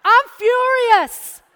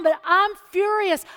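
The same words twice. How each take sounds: First: Slow, loud, higher, every word hammered; furious. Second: Said in the usual way. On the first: Retold or imitated. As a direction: spit it out slowly in retold fury.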